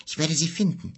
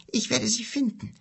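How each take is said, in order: First: Said in the usual way. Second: Werde lifted high and pushed; a fierce, high vow on werde; stress on werde. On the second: Acted. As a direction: hit the word werde hard. Vow repeated, second more intense.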